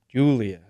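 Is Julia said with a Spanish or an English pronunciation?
English. The name is said with an English pronunciation. This is how local people say it. "as they would say it here"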